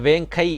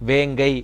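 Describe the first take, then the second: First: The middle consonant sounds like a hard k. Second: The middle consonant sounds like a soft g. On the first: The speaker calls it wrong. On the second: The speaker calls it right.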